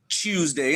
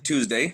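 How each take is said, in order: First: It begins with a 'ch' sound, like chew. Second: It begins with a plain 't' sound.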